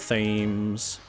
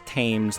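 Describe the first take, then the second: First: The word begins with a TH sound. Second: The word begins with a plain T sound. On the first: The speaker deliberately pronounces the written H. "There's an H in there, and I'm pronouncing it" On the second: This is the accepted pronunciation. "supposed to be pronounced Thames"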